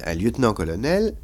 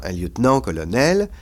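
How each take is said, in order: First: "lieutenant-colonel" as one group, accent only on "nel"; no accent on the "nant" of "lieutenant-colonel"; single final stress. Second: "lieutenant-colonel" with accents on both "nant" and "nel"; accent the end of "lieutenant", then the end of "colonel"; two separate accents in "lieutenant-colonel"; double stress. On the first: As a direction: run "lieutenant" unaccented into "colonel". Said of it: "l'accent qui était sur nan a disparu". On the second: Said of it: "mais vous ne dites pas". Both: Shown as a demonstration.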